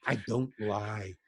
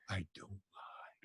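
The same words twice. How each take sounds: First: Said in the usual way. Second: Whispered, slow and low. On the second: Shown as a demonstration. Guest assuring the host his stories are true, whispered. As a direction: breathe it as a secret.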